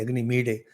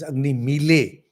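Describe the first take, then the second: First: The consonant in the second word sounds like d. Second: The consonant in the second word sounds like l. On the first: "some say" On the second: "some people pronounce it as"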